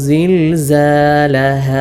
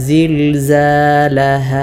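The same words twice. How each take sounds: Both takes have the same delivery.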